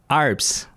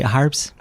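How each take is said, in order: First: The name starts directly with a vowel. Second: The name starts with an h sound. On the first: The speaker calls it right. "Il n'y a pas de H, fait qu'il faut comme dire Arps" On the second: The speaker calls it wrong. "souvent on prononce le H"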